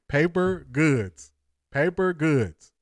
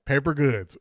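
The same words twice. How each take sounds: First: Slow. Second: Said in the usual way. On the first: Shown as a demonstration. Savoring a chat comment, drawn out.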